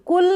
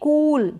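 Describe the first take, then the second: First: The vowel is short. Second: The vowel is long. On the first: The speaker calls it wrong. "कुल नहीं पढ़ेंगे" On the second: The speaker calls it right. "इसको थोड़ा long pronounce किया जाता है"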